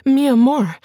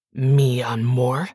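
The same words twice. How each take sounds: First: Higher, louder, begging mi amor with a falling tune; frightened pleading wife. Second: Slow, low, sneering mi amor with a rising question; mocking echo. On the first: Acted. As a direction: cry out mi amor in fear, stress on mi. Bianca pleads in fear. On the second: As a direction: throw mi amor back at her in scorn, slow. Miguel mocks her words.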